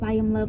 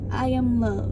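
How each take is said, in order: First: The phrase is said quickly, rushed into the next. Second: The phrase is said slowly, followed by a pause. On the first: The words are not fully taken in. The speaker calls it wrong. "I see myself saying my positive thoughts so fast" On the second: The words are heard and felt. The speaker calls it right. "say it to yourself slowly"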